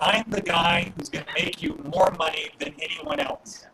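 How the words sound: It is said confidently and assertively.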